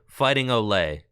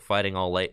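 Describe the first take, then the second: First: The last word sounds like 'oh lay'. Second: The last word sounds like 'all late'. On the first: The speaker calls it right. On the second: The speaker calls it wrong. "I am too American to pronounce that"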